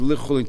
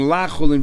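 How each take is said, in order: First: The first syllable is said with an 'i' vowel. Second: The first syllable is said with an 'a' vowel. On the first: It means to chulin. The speaker calls it right. "read it li chulin" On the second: It means not chulin. The speaker calls it wrong. "instead of reading la chulin"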